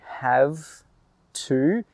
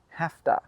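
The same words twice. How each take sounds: First: It is said fully with a v sound. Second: It is said quickly with an f sound. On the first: "When we say have to" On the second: "really quickly, it becomes have to"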